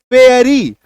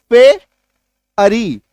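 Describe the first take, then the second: First: Said in the usual way. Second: पे, pause, अरी; split into syllables. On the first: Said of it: "जैसे कि मान लीजिए". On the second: Shown as a demonstration. Teacher counting sounds for students, split into syllables. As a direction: break the word into पे and अरी with a clear gap. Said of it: "दो बार में निकला".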